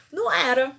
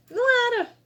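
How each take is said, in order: First: Não era, stressed on Não and a bit louder; a firm no on Não era; Não era said firmly on Não; firm denial. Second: Não era, with Não much higher and louder; Não era nearly cried out, Não on top; emphatic high denial. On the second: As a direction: punch Não, up high and loud. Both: Real, not acted. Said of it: "repeats it stronger".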